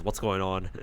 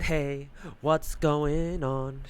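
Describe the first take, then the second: First: Said in the usual way. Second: Slow, stretched-out mock hello; mock drawn-out greeting. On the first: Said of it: "Tristan pops in and says". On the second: Gamer mocking the knight's entrance, slow drawn-out hey. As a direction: drag every word out, teasing. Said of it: "I said".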